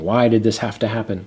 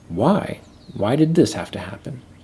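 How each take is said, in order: First: It is said in an angry tone. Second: It is said in a humble tone.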